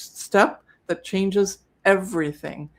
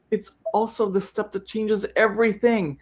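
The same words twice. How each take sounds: First: Slow, deliberate emphasis on each word; emphatic repeat. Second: Said in the usual way. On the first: Shown as a demonstration. Host repeating the key step for sellers, slow and emphatic. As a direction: spell it out slowly to drive the point home. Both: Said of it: "So I'll say it again".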